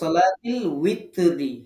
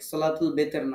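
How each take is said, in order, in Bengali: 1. দ্বিতীয় শব্দটি W উচ্চারণ দিয়ে শুরু হয়। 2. দ্বিতীয় শব্দটি B উচ্চারণ দিয়ে শুরু হয়। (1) "এটা হচ্ছে সঠিক" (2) "না"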